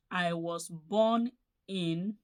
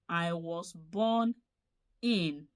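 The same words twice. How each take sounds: The two takes are said the same way.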